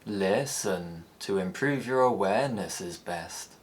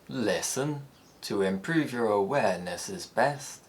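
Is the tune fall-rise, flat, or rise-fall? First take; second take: rise-fall; fall-rise. First: The pitch rises then falls on stretched syllables. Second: The pitch falls gradually, then rises at the end. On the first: "Like the rise fall, syllables are stretched to accommodate the longer tone" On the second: "it has a falling head ... before rising on the final syllable of the phrase"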